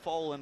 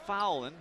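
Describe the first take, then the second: First: The first syllable sounds like 'foe'. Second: The first syllable sounds like 'foul'. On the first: This is an accepted alternative pronunciation. "if you want to call him Foland, that's fine too" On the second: This is the official pronunciation of the name. "it's pronounced Fowland"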